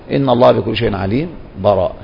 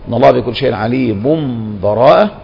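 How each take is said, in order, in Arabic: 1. سكت خفيف بلا نفس قبل الكلمة الأخيرة. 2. وصل بلا قطع. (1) "أو بالسكت" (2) "الوصل"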